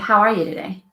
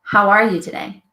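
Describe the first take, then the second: Both takes have the same delivery.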